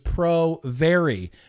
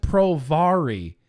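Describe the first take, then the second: First: 'Vary' sounds like the start of 'variable'. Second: 'Vary' does not sound like the start of 'variable'. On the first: The speaker calls it right. "It was Pro Vary" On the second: The speaker calls it wrong. "It wasn't Pro Vary"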